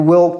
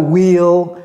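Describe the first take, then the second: First: The vowel in will is dropped almost completely. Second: The vowel in will is fully pronounced. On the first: The speaker calls it right. "ne prononcez même pas la, la voyelle" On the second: The speaker calls it wrong. "C'est pas will"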